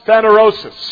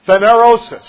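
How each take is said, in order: First: The word ends with the sounds 'rosis'. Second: The word ends with the sounds 'rosis'.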